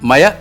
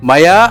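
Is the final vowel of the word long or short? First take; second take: short; long. First: The final vowel is cut short. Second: The final vowel is held long. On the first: The speaker calls it wrong. "പകരം മയ എന്നായിപ്പോയതുകൊണ്ട്" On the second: The speaker calls it right. "ദീർഘം മയ എന്നുള്ളതിന്"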